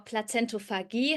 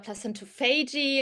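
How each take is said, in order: First: The word is pronounced the German way. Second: The word is pronounced the English way.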